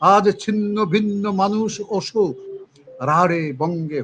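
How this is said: A clear pause follows 'shok' at the line end. The speaker calls it right. "এইভাবে পড়তে হবে।"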